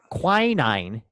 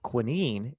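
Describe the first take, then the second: First: The word is said with an American pronunciation. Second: The word is said with a British pronunciation. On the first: "is how the Americans pronounce it" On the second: "is the British pronunciation"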